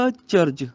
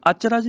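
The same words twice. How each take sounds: First: ਅਚਰਜ as "a—charj"; separated prefix. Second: ਅਚਰਜ as "aacha-raj"; wrong run-together vowels. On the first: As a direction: split ਅਚਰਜ after the short a. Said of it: "ਇਹਨੂੰ ਅਚਰਜ ਨਹੀਂ ਕਹਿਣਾ". (ਅਚਰਜ ਨੂੰ "ਅ-ਚਰਜ" ਬੋਲੋ) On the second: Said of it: "ਅਚਰਜ ਨਹੀਂ ਕਹਿਣਾ". (ਅਚਰਜ ਨੂੰ "ਆਚਰਾਜ" ਵਾਂਗ ਬੋਲੋ) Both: Shown as a demonstration.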